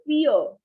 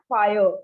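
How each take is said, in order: First: The vowel sounds like 'ee'. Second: The vowel sounds like 'eye'. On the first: The speaker calls it right. "here it is written I E. So it's E" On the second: The speaker calls it wrong. "not fire"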